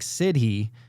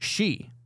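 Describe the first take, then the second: First: It is read letter by letter as spelled. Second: It is said as one short syllable, 'shee'. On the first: The speaker calls it wrong. "so it looks like Sidhe" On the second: The speaker calls it right. "but it's pronounced she"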